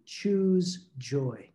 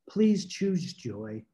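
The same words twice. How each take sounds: First: Said in the usual way. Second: Slow gentle plea. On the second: Retold or imitated. Late wife gently begs her grieving husband, slow and tender. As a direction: coax him slowly toward joy.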